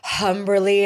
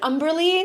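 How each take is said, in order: First: The name starts with a clear H sound. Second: The name starts with a vowel, no H sound. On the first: The speaker calls it wrong. "a lot of people usually are like Humberly ... that's not it" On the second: The speaker calls it right. "the H is silent"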